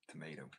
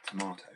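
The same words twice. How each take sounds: First: Tomato said to-MAY-do with a soft t; Tomato the American way; American pronunciation. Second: Tomato said to-MAH-to, louder; Tomato the British way; British pronunciation. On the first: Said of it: "You guys would say tomato". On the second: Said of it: "tomato or tomato". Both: Shown as a demonstration.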